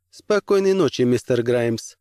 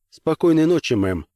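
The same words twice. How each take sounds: First: A crisp lady's goodnight; cool commissioner. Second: Said in the usual way. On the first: Acted. Commissioner answers goodnight, higher.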